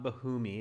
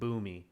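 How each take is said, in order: First: The name is said with an H sound. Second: The name is said without an H sound. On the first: The speaker calls it wrong. "So it's not Bahumi" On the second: The speaker calls it right. "So you don't pronounce the H"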